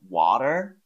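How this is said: It is said with an American accent. "an American would say something like water"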